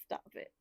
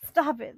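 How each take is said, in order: First: Soft stop it. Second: Loud stop it. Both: Real, not acted.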